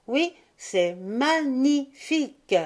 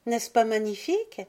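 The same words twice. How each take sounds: First: "magnifique" slowly split syllable by syllable, ma-gni-fique; scanned for emphasis. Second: "magnifique" in one run, lifting to a question; higher, delighted child asking for agreement; joyful question. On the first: Pivoine agreeing with sister, "magnifique" chanted out in separate emphatic syllables. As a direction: hammer out each syllable of "magnifique", high and slow. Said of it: "en scandant son adjectif pour lui donner plus de force". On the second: Violette asking her brother to admire it, joyfully. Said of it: "Violette lui cria joyeusement".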